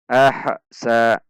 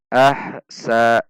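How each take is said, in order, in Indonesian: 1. Bunyi h memantul, ada jeda sebelum sa. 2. Bunyi h memantul, ada jeda sebelum sa.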